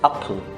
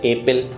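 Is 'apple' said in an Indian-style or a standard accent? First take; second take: standard; Indian-style. First: It is said in a more standard English way. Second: It is said in a rough desi Indian English way. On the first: The speaker calls it right. "Right pronunciation क्या होगी? It's अप्पल" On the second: The speaker calls it wrong. "देसी कच्ची English बोलेंगे एप्पल"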